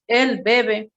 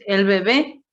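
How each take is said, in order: First: "bebé" as BE-be, falling away after; stress on first syllable. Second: "bebé" as be-BÉ, lifted at the end; stress on last syllable. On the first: Teacher showing the other meaning, stress on first syllable. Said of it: "otro significado". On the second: Teacher naming the newborn, stress on last syllable. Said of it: "estamos refiriéndonos al recién nacido". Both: Shown as a demonstration.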